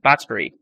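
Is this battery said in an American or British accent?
British. It is said with a British accent. "The English accent is battery"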